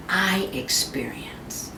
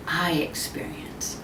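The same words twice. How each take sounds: First: Slow whispered ending. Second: Even softer, slow whispered echo. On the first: A speaker ending a thought to the audience in a whisper. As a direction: let the words fall to a whisper. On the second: The speaker echoing the thought to the audience in a softer whisper. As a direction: echo it, barely there. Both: Shown as a demonstration. Softly repeated line end.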